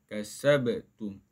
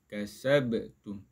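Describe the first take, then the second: Both takes have the same delivery.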